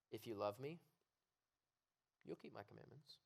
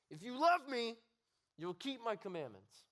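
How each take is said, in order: First: Soft, gentle invitation; tender reading. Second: Loud, high, sneering command; disgusted God. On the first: Preacher showing the loving way to read the verse, soft and tender. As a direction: say it softly, like a loving promise. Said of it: "You can read it like this". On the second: Preacher voicing a disgusted God looking down, loud sneering command. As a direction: snarl it down at him in disgust. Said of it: "disappointed look". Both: Shown as a demonstration.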